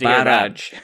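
The R is rolled in a Scottish way.

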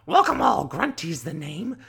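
The witch voice is very rough and gravelly.

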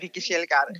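The name is pronounced the Swedish way. "Det är så man säger det i Sverige"

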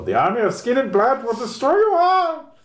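It is said in a put-on foreign accent.

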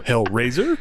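The word is clipped, with pitch rising mid-word. This marks a New York speaker. "more staccato with your New York accent, and you go Hellraiser, and you raise up"

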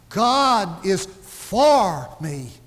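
The word 'for' is stressed. God is on my side, not against me. "not against me"

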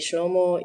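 It is said in the Western Assyrian dialect.

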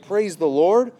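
It is said like an uncertain question.

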